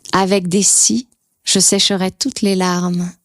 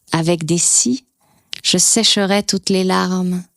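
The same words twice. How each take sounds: The two takes are said the same way.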